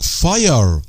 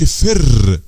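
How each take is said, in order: First: The vowel is a long ai sound. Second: The vowel is a short i sound. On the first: The speaker calls it right. "بيخليه لونج" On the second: The speaker calls it wrong. "ما اقولش فر لا لا"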